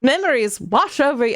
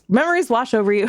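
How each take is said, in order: First: It is read in a put-on narrator voice. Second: It is read in her normal voice.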